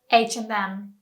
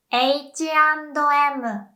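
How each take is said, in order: First: Said in the usual way. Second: "H and M" slow and high as "eichi ando emu"; Japanese pronunciation. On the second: Shown as a demonstration. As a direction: say "H and M" as ei-chi an-do e-mu. English then Japanese brand demo.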